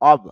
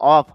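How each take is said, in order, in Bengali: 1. এটি v ধ্বনি দিয়ে শেষ হয়। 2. এটি f ধ্বনি দিয়ে শেষ হয়। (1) "ভ সাউন্ড" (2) "যদি আমরা অফ ফ বলি, ফ না"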